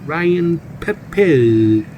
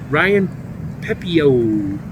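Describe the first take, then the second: First: The name is said in a French accent. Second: The name is said in a plain American accent.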